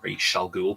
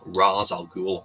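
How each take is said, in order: First: The first syllable ends with an sh sound. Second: The first syllable ends with a z sound. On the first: This is the Hebrew pronunciation. "It's used the Hebrew pronunciation Raish" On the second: This is the Arabic pronunciation. "The Arabic pronouncement is the first. For the first syllable is Raz"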